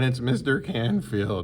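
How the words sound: It is said in an unusual put-on voice.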